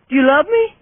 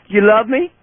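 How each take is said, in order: First: Far higher squeaky sing-song question; squeaky pet talk. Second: Higher sing-song question to the dog; pet talk. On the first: Same question, much higher. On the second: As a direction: ask the dog sweetly. Asks dog repeatedly, pitch climbs. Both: Real, not acted.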